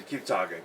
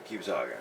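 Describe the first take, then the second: First: Softer, trailing off. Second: Much softer, lower, fading out; almost under the breath. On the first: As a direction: let it fade away. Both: Real, not acted. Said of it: "Keep saying".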